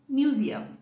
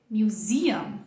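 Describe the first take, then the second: First: The stress is on the first syllable. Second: The stress is on the second syllable. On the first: The speaker calls it wrong. "e não" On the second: The speaker calls it right. "qual que é a sílaba forte? É a segunda"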